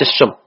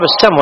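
First: "السم" as as-summ, with a u; mistaken damma. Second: "السم" as as-samm, with an a; fatha on sin. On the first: Teacher showing the rejected vowel, "السم" as summ. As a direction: give "السم" a u vowel after the s. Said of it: "وليس السم". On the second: Teacher giving the correct vowel, "السم" as samm. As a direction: give "السم" an a vowel after the s. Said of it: "الصواب السم". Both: Shown as a demonstration.

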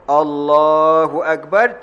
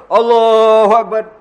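First: Allahu Akbar drawn out slowly; slow proper takbir. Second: Higher, louder Allahu Akbar tossed off; hasty takbir. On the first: Preacher demonstrating correct takbir, slow and drawn out. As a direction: stretch Allahu Akbar calmly. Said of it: "takbiratul ihram dulu". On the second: Preacher mocking a latecomer's rushed takbir, higher and louder. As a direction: fling out Allahu Akbar then rush. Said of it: "orang masuk-masuk". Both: Shown as a demonstration.

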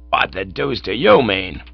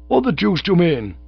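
First: Understated shout in usual pitch; shouted retort. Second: High, indignant outburst; indignant young gent. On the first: Manager shouting back at Cyril, a moderately loud retort. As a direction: fire the question back forcefully. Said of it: "shouted old Blumenfield". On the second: Cyril challenging the manager from the stage, high indignation. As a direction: protest in offended high pitch. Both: A narrator's reading.

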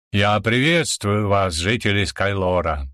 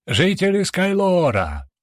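First: Slow, booming royal greeting; booming emperor's voice. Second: Slow, ringing herald's call; herald's proclamation. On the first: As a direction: thunder it out over the crowd. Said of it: "прогремел голос императора". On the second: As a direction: announce it grandly to the crowd. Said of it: "торжественно начал свою речь". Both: A narrator's reading.

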